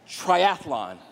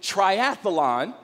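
First: No extra syllable is added, giving three syllables. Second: An extra syllable is added, giving four syllables. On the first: The speaker calls it right. "It's actually triathlon" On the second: The speaker calls it wrong. "add a syllable that isn't there"

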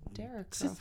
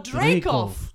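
First: The name is said as Derekov. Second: The name is said as Dreykov. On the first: The speaker calls it wrong. "I don't know how you say that" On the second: The speaker calls it right. "It's Dreykov"

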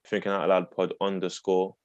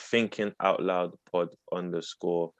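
First: It is said at normal speed. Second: It is said slowly and deliberately.

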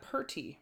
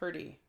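First: The middle consonant sounds like a t. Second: The middle consonant sounds like a d. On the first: The speaker calls it wrong. "Not purty" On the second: The speaker calls it right.

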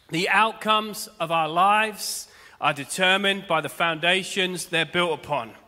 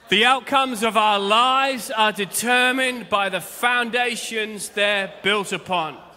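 First: It is said calmly, without extra energy. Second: It is said with lots of energy.

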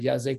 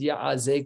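First: The word has no throaty ayin sound. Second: The word has a throaty ayin sound. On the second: "with an ayin"

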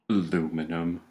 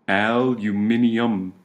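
First: The word is said the American way. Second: The word is said the British way.

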